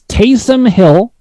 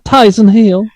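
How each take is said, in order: First: The first name is said as Taysom. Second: The first name is said as Tyson. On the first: The speaker calls it right. "it's Taysom Hill" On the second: The speaker calls it wrong. "you're saying it like a, a girl from Forrest Gump"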